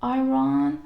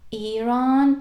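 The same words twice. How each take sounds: First: Iran said as "eye-RAHN"; mispronunciation. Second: Iran with a long ee, "ee-RAHN"; correct pronunciation. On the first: Teacher showing learners the Iran to avoid, mispronunciation. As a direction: start Iran with "eye" in place of "ee". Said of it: "but not". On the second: Teacher showing learners how Iran is pronounced, correct pronunciation. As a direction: say Iran starting on a clear "ee". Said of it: "the right pronunciation is Iran". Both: Shown as a demonstration.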